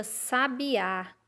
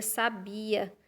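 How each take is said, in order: First: "sabiá" com força no "á" final; "sabiá", última sílaba mais forte; com acento agudo. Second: "sabia" com força no "bi"; "sabia", tônica na penúltima sílaba; sem acento. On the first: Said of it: "tem um acento agudo na letra A". ("sabiá" com tônica no fim) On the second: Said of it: "Se não tivesse o acento". ("sabia" dito sem acento no final) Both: Shown as a demonstration.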